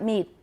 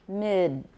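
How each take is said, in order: First: The final d sound is missing or dropped. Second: The final d sound is clearly pronounced. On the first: The speaker calls it wrong. "Not mid" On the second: The speaker calls it right. "有个 D 在后面"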